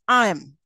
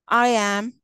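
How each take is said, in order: First: The words are reduced and run together. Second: Both words are said fully and separately. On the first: "the weak form" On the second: "that's a strong form"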